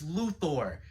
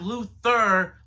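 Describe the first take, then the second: First: The name ends with an 'or' sound. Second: The name ends with an 'er' sound. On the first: The speaker calls it right. "it's Luthor" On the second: The speaker calls it wrong. "not Luther"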